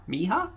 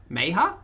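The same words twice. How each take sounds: First: "Mija" with a long "ee", rising as a question; pronounced MEE-ha. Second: "Meja" said as MAY-ha, rising as a question; pronounced MAY-ha. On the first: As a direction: try "Mija" as MEE-ha, higher at the end. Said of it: "Is it hard E?". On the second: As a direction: try "Meja" with an "ay" first vowel. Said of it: "how a person of Mexican descent says". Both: Shown as a demonstration.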